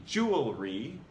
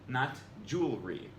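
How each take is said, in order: First: "jewelry" as JOO-uhl-ree, all three syllables. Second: "jewelry" as JOOL-ree, middle syllable dropped; two syllables. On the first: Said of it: "cut out a syllable that's actually there". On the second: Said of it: "cut out a syllable". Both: Shown as a demonstration.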